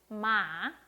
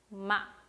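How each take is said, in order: First: The pitch rises, then drops quickly in a curve. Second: The syllable is cut off short and sharp. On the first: "올렸다가 빨리 내려주시면 됩니다" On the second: "점을 딱 찍어주시면 돼요"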